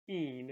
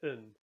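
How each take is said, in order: First: The full pronoun is said with stress. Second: The pronoun is softened to a short unstressed sound. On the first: "if we were to pronounce it kind of stressed" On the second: "Often it gets softened to un"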